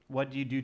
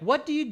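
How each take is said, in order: First: The voice is flat with little pitch movement. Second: The voice is lively with pitch going up and down. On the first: The asker sounds serious and uninterested. "they'll talk to you like this" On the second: The asker sounds engaged and friendly. "They're not going to be like"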